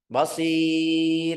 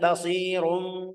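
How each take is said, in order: First: The word ends on a light, thin r. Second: The r is heavy and followed by a vowel. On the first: The reciter stops at the end of the verse. "berhenti basir" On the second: The reciter continues into the next words. "mau lanjut basirum"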